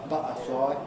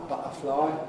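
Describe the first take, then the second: The two takes are said the same way.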